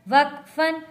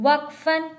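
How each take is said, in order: Both takes have the same delivery.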